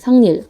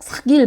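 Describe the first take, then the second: First: The middle consonant is a nasal ng sound. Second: The middle consonant is a plain k sound. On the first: The speaker calls it right. "우리가 이렇게 발음하고 있어요, 이미" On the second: The speaker calls it wrong. "우리가 삭, 삭일 막 이러진 않거든요"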